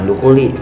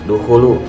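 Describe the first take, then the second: First: The word ends with an 'i' vowel. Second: The word ends with an 'u' vowel. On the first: The speaker calls it wrong. "bukan dukhuli" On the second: The speaker calls it right. "harusnya dukhulu"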